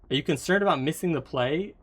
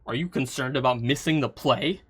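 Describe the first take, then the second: First: It is said in a friendly tone. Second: It is said in an unfriendly tone.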